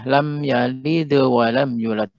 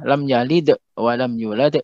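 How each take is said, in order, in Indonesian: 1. Frasa mengalir tanpa hentian glotal. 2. Hentian glotal disisipkan di dalam frasa.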